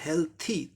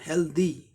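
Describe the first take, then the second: First: The consonant before the final vowel is a 'th'. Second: The consonant before the final vowel is a 'd'. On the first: The speaker calls it right. "था का उच्चारण होता है यहाँ" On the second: The speaker calls it wrong. "अधिकांश लोग इसका उच्चारण हेल्दी कहते हैं, द द"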